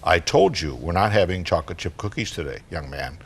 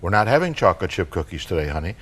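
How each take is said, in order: First: Low, firm mom voice; stern but restrained, dropping away at the end; a little attitude. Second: Even, understated mom voice; matter-of-fact. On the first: Mom repeats herself to her four-year-old, a little attitude. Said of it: "with a little attitude, Mom says". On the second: Mom answers her four-year-old about cookies, matter-of-fact. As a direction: say it plainly, without fuss. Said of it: "Very matter-of-factly, Mom says". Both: Acted.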